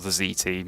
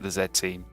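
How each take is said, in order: First: The letter is said as zee. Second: The letter is said as zed.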